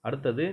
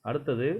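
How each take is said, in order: No difference in how they are said.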